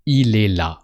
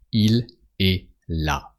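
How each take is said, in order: First: Quick, with "il" bound into "est"; faster, bound together. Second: Slow, each word set apart; slow and careful. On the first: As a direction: run it together at natural speed. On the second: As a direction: spell it out slowly for the learner. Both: Shown as a demonstration. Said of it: "you can say it a bit faster".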